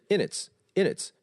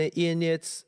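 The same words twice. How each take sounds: First: "in its" short and tightly linked; quick linking. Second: "in its" drawn out loosely; wrong linking demo. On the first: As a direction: run "in its" together quickly. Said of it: "而是很急的". (很急地连读in its) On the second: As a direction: stretch "in its" slackly. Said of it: "不要读成". (错误示范：in its读得拖沓) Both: Shown as a demonstration.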